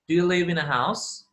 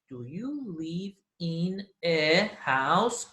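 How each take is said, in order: First: The words are linked smoothly together. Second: The words are said separately, without linking. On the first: The speaker calls it right. "Linking sounds" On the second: The speaker calls it wrong. "we do not say"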